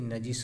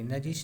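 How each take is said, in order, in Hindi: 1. यह शब्द s ध्वनि पर खत्म होता है। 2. यह शब्द sh ध्वनि पर खत्म होता है। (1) "नजिस होना चाहिए" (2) "नजिश नहीं"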